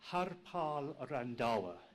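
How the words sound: The name is said in an affected, posh accent. The speaker calls it right. "A very affected accent, unique"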